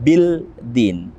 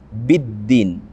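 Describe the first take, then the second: First: A separate l is heard before the d. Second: The l merges into a doubled d sound. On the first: The speaker calls it wrong. "bukan bil din" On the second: The speaker calls it right. "Kita langsung masuk tanpa membaca alif lam"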